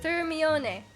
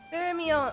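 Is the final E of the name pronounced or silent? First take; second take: pronounced; silent. First: The final E is pronounced. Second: The final E is silent. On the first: The speaker calls it right. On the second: The speaker calls it wrong.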